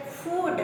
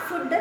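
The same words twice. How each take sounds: First: FOOD with a long "oo" vowel; prolonged double O. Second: FOOD with a clipped short "u", like "foot"; wrong short vowel. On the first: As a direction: hold the oo of FOOD. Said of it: "you have to pronounce it as food". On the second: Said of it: "not food". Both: Shown as a demonstration.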